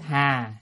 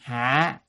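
First: The word has a level, unmarked tone. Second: The word has a heavy, low glottalized tone. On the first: The word means lotus. The speaker calls it wrong. "chữ hà sai" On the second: The word means to shoulder a burden. The speaker calls it right. "phải là âm hạ, tức là dấu nặng"

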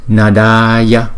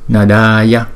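Both takes have the same delivery.

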